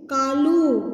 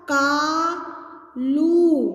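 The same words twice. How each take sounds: First: Said in the usual way. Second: कालू with long drawn-out आ and ऊ; stretched vowels. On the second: Shown as a demonstration. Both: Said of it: "आ की मात्रा कैसे बोलनी है".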